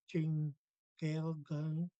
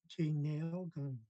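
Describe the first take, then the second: First: The N and G sounds are said separately. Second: The N and G blend into one nasal sound. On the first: The speaker calls it wrong. "we don't say Jing Gale gun. Um, that would be incorrect" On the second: The speaker calls it right. "the N G is really nasal. So what you hear is"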